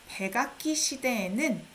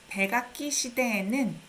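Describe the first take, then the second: The two takes are said the same way.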